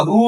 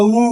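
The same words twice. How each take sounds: First: "who" said as "hoo"; H pronounced. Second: "who" said as a bare "oo"; H dropped. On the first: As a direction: start "who" with a clear h. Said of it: "এইচ এর উচ্চারণ এখানে হচ্ছে". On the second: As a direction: leave the h off "who". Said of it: "এটা who না who?". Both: Shown as a demonstration.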